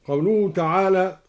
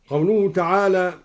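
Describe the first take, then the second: Both takes have the same delivery.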